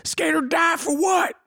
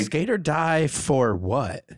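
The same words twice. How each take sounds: First: Very high screamed hook; high-pitched drawn-out yell; shouted song hook. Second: Slow, drawn-out delivery at normal volume; spoken slowly, stretching the words; slow slogan. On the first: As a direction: belt it out high, like a song chorus. Let's make that song. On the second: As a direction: draw each word out slowly. Tries out a song hook. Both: Pretend.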